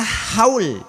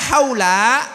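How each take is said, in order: First: The word ends on the l, no vowel. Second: The word ends with a short a vowel. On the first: It means a yearly commemoration. "dibaca sukun" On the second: It means around or surrounding. "kalau dibaca fathah"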